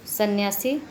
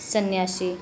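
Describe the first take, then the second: First: सन्यासी with plain s sounds; sibilant contrast. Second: सन्यासी with sh for s, like sanyaashi; sibilant contrast. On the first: Teacher contrasting spellings, plain-s सन्यासी. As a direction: say सन्यासी as sanyaasi, rising end. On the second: Teacher contrasting spellings, sh-sound सन्यासी. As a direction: turn the s of सन्यासी to sh. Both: Shown as a demonstration. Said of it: "ये श यहाँ पे लगा है".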